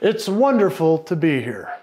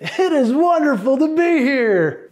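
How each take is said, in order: First: It is said in a firm, authoritative voice. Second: It is said in a lively, enthusiastic voice. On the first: "the authoritative" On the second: "the enthusiastic"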